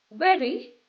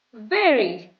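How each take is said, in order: First: "Very" with a clear v, rising. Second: "very" said as wary, falling. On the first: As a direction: bite the lip for the v in "Very". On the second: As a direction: round the lips to a w for "very". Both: Shown as a demonstration. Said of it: "repeat after me".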